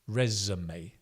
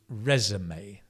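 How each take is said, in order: First: American pronunciation with an 'uh' vowel sound. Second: The same.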